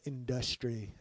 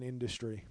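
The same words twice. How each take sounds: First: "industry" drawn out slowly, middle syllable stressed; deliberate mispronunciation. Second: Said in the usual way. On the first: Shown as a demonstration. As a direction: stretch "industry" into in-DUS-try. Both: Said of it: "as I like to say".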